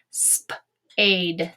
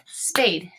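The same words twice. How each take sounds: First: "Spade" split into sp and ade; sounded out. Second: Said in the usual way. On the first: Shown as a demonstration. Teacher tapping out a word for students, "Spade" in pieces. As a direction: tap out "Spade" in separate sounds. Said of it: "tap this word out and say it". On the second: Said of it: "and say it".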